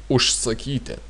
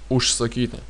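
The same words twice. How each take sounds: The two takes are said the same way.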